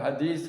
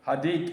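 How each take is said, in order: First: The word ends with an 's' sound. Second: The word ends with a 't' sound.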